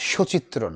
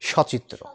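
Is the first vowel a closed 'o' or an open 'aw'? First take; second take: closed o; open aw. First: The first vowel is a closed o sound. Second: The first vowel is an open aw sound. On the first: The speaker calls it wrong. "এই উচ্চারণটা সচিত্র নয়" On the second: The speaker calls it right.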